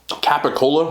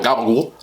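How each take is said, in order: First: It is said in a standard American way. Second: It is said in a local Italian-American way.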